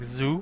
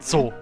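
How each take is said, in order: First: It begins with a soft buzzing z sound. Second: It begins with a sharp ts sound. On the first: "in English, Z is very soft. It's like zoo" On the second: "In German, it's very sharp. ... like a T S sound"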